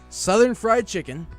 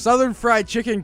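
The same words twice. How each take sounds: First: The phrase is read at a slower pace. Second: The phrase is read at a normal pace.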